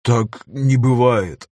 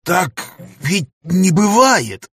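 First: Павел Павлович echoes the professor's words, slow and resigned; quiet echo. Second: High, slow, stunned cry of disbelief; can't accept what he's just heard; shocked disbelief. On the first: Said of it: "повторил слово профессора". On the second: Professor to his weeping friend, stunned high disbelief. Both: A narrator's reading.

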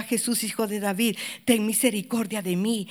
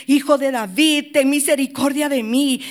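First: Said in the usual way. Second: Louder insistent plea; crying out more. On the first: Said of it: "él gritaba". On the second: Retold or imitated. Blind man calling louder over the crowd, insistent cry. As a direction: push the plea harder this time. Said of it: "él clamaba mucho más".

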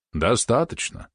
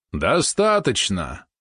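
First: Stern. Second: Booming. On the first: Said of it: "строго сказал благочинный". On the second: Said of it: "громогласно изрёк благочинный". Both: A narrator's reading.

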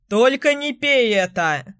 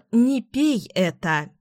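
First: Narrator's mild call over the shoulder; lightly called warning, voice a little lifted. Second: Drawn-out remembered warning; slow echo. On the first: Tom walking away from the girl with his beer, calling out. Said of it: "крикнул он, удаляясь". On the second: Girl recalls Tom's warning to her, slow echo. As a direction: say it slowly, as an echo in memory. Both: A narrator's reading.

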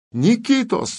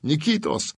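First: Shouting a name. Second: Said in the usual way. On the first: Acted. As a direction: yell the name across the field. Calling out to Nikita.

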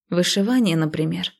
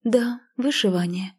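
First: A mildly sceptical hm; wry scoff. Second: Lightly severe, veteran-nun tone; a touch of strict, pious reproof; stern. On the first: Narrator scoffs at the girl's new hobby, wryly. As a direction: suggest it with understated mockery. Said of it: "хмыкнула я". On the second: Embroiderer answers the scoff like a seasoned nun, mildly stern. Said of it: "строго ответила она тоном монашки со стажем". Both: A narrator's reading.

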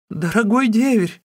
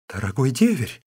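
First: A much higher, louder, terrified shriek; the sister-in-law shrieking in terror at the knife. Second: A mild, lightly voiced exclamation; the sister-in-law crying out to her brother-in-law, understated. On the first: Acted. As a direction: shriek it in panic. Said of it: "завизжала она". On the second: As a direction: call out to him with only a touch of alarm. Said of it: "воскликнула невестка".

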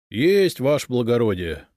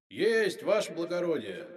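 First: Loud but rueful acknowledgement; obey with a sorry heart; high start falling into glum compliance; sad. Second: High, distant, echoing shout; faint, jubilant far-off cry; triumphant from underground. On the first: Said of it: "печально ответил городовой". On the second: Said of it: "донёсся из-под земли торжествующий голос". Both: A narrator's reading.

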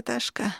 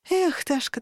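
First: Ташка dropped softer with a falling sigh; softer, falling repeat of Ташка; quieter reproach. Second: Sigh of reproach. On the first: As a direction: let the second Ташка fade, resigned. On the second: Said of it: "Ташка. Ташка". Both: Acted.

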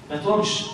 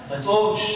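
Both takes have the same delivery.

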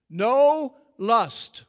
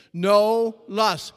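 First: NO hit hard, loud and high; preached NO, then lust; stress on NO. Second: NO punched loud and high; call-and-response NO; stress on NO. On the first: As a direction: punch the word No. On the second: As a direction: lead the crowd, hitting No. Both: Shown as a demonstration. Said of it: "Say it with me".

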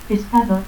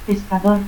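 First: Pescador ending in a stop; altered final R. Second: Said in the usual way. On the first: Shown as a demonstration. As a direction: say "pescadot" without the R. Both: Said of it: "confusión de R y T al final".

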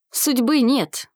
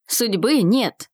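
First: Insistent, at a normal pace. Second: Slow, stubborn repetition. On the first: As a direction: calmly insist on the point. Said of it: "настаивал Арсений". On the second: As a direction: dig in, drawing each word out. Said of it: "упрямо повторил Арсений". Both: A narrator's reading.

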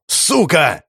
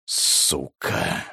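First: Angry curse. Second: «Сука!» breathed out in a low whisper; whispered curse. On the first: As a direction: bark «Сука!» while slamming the table. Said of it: "Он ударил по столу". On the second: Xiao cornered by the bomb threat, whispered curse. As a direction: hiss «Сука!» under the breath, barely audible. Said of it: "прошептал Сяо". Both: Acted.

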